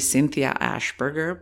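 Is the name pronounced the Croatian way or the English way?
English. The name is pronounced with English sounds. "This is my pronunciation of my name in English"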